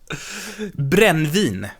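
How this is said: The word is said with Swedish vowels. The speaker calls it right.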